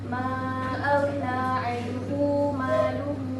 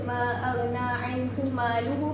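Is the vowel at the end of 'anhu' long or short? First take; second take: long; short. First: The vowel ending 'anhu' is drawn out long. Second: The vowel ending 'anhu' is kept short. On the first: "So dia akan dibaca panjang" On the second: "Biasa kita baca"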